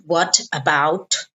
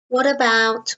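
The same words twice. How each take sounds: First: The two words are said separately. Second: The two words are joined together. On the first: The speaker calls it wrong. "It's not what about, no" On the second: The speaker calls it right. "we kind of join them together"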